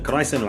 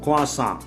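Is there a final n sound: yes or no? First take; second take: yes; no. First: It ends with an 'n' sound. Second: It ends with an open 'sah' vowel. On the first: The speaker calls it wrong. "கிராய்சன் வாங்க" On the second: The speaker calls it right. "குவாசா இது"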